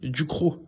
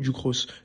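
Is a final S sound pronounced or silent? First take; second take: silent; pronounced. First: The word ends without any S sound. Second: The word ends with an audible S sound. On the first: "on va pas prononcer le S est silencieux" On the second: "c'est du croc ou du cross"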